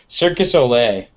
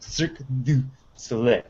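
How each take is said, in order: First: The middle 'du' is dropped and run together. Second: The middle 'du' is clearly said and enunciated. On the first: The speaker calls it wrong. "it always sounds like Circus Olay" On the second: The speaker calls it right. "really enunciate it; There's a do right in the middle"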